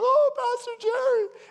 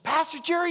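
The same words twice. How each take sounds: First: Very high, loud crying cry of his name; bawling. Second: High, loud, urgent call of the pastor's name; excited phone caller. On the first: Woman bawling to the pastor on the phone, very high. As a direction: wail his name through tears. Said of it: "she's bawling on the phone". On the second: Caller phoning the pastor, high loud and urgent. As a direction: blurt his name out in a rush. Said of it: "somebody phoned up and said". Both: Retold or imitated.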